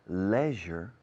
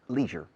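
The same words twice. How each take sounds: First: It is said with a British pronunciation. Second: It is said with an American pronunciation. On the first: "Leisure in the United Kingdom and Ireland" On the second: "Leisure in America and Canada"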